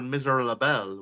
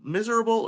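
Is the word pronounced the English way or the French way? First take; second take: French; English. First: It is pronounced with a French accent. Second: It is pronounced with an English accent. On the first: "with the accent" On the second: "say it like in English"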